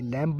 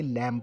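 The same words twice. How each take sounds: First: "लैम्ब" with the final b sounded after m; wrong pronunciation. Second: "लैम्ब" ending on m, no b; silent b. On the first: Teacher showing students the wrong reading, final b sounded in "लैम्ब". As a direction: voice the b ending "लैम्ब". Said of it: "ये लैम्ब नहीं पढ़ेंगे". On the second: Teacher showing students the right reading, silent b in "लैम्ब". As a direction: close "लैम्ब" on the m, dropping the b. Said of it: "लैम्ब पढ़ेंगे". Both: Shown as a demonstration.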